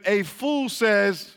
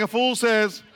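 First: Said in the usual way. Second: Country twang. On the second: Shown as a demonstration. Preacher asks the crowd for twang, Southern twang. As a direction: say "A fool says" in a hammed-up Southern twang. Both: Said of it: "give me some twang".

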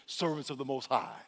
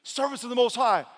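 First: Said in the usual way. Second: High, loud royal summons; calling out. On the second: Acted. King hails the servants in the furnace, calling out. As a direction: hail them loudly with a raised voice.

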